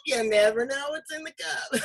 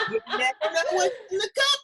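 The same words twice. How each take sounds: First: Said in the usual way. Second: Said through laughter, higher; laughing. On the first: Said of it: "repeats calmer". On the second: Real, not acted. Host teasing guest about her cup, laughing. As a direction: giggle through the words. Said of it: "laughing through line".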